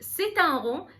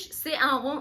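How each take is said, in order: First: A t sound links the first word to the next. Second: No t sound links the first word to the next. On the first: The speaker calls it right. "عملت ليزون ونطقت اخر حرف في كلمه سي اللي هو حرف التي" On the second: The speaker calls it wrong. "ما قلتش سي ان رون"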